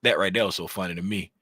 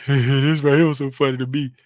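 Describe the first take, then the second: First: Said in the usual way. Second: Laughing through the words, louder; cracking up while saying it; real giggle breaking in. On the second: Real, not acted. Laughing at his own clip.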